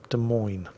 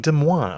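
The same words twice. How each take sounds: First: It is pronounced the American way. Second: It is pronounced the French way.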